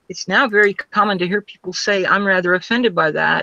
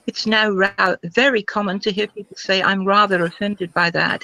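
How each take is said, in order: First: It is said in an ordinary, non-RP accent. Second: It is said in a British received pronunciation accent. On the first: The speaker calls it wrong. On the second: The speaker calls it right.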